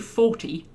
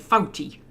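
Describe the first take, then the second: First: The word is said in a standard accent. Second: The word is said in a strong Geordie accent. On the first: "you don't say forty" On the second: "you say fouty"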